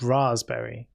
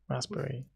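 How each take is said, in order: First: The word is said slowly and fully. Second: The word is said quickly and clipped. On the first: This is how other people think it should be said. "Apparently, it's raspberry" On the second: This is the speaker's own habitual way of saying it. "I say it quickly"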